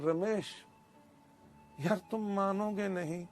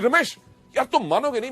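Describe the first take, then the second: First: It is said without excitement, flatly. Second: It is said with excitement and energy.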